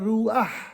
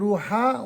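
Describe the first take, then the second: First: The a-vowel comes before the final consonant. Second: The a-vowel comes after the final consonant. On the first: The speaker calls it right. "on dira" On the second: The speaker calls it wrong. "Au lieu de dire par exemple"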